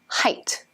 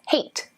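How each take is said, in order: First: The vowel is a long I sound. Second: The vowel rhymes with weight. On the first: The speaker calls it right. "with a long I" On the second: The speaker calls it wrong. "Many students pronounce this as hate, as in freight or weight"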